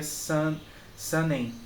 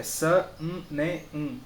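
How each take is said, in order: First: "san, sanem" with the N merged into the vowel; "sanem" said the mistaken Portuguese way; Portuguese-style syllables. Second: "sa, um, ne, um" as four distinct beats; separated syllables. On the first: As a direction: join "sanem" into two nasal syllables. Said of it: "Não é igual às sílabas portuguesas". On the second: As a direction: give each "um" its own syllable. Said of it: "tem que ter esse um no N". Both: Shown as a demonstration.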